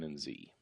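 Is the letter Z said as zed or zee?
zee. The letter Z is said the American way, zee.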